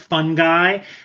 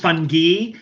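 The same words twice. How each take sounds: First: It is said with an American pronunciation. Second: It is said with a British pronunciation. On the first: "the U S pronunciation is fungi, like fungi" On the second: "the British pronunciation is fun fungi"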